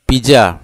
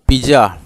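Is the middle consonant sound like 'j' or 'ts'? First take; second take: j; j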